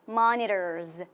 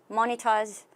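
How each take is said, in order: First: It is said in an American accent. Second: It is said in a British accent. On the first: "미국 발음으로 monitors 이렇게" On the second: "지금 우리가 들은 건 발음이 영국 발음이죠"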